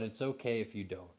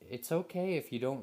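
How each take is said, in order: First: It is said in a deeper masculine voice. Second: It is said in a soft baby-talk voice. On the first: "in more of a male voice, uh, or a masculine intonation" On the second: "sort of baby talk they're talking to you"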